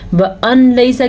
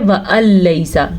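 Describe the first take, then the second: First: The n sound is pronounced before laysa. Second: The n sound is dropped and merged away. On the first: The speaker calls it wrong. "के बजाय" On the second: The speaker calls it right. "हमने पढ़ा है व अलैसा, नून ख़त्म हो गया"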